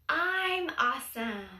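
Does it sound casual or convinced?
casual. It is said plainly, without much conviction.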